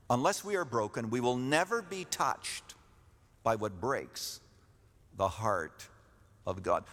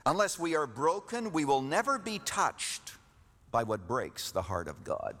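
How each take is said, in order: First: Phrase by phrase with long pauses; slow dictation. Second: Slow, deliberate repeat. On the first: Preacher lets the congregation write it down, slowly in pieces. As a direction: dictate it, pausing after "breaks" and "heart". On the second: Preacher repeats the key point for those writing it down, slowly. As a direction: state it deliberately for note-takers. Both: Real, not acted. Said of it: "I need to say this slowly".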